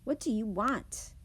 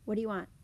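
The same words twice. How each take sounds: First: Emphatic, fully pronounced "What do you want?"; changed emphasis. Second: "What do you want?" run together quickly as whaddya want; reduced run-together. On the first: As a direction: separate each word in "What do you want?" and lean on want. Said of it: "changes the emphasis of the sentence". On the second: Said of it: "it could sound like". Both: Shown as a demonstration.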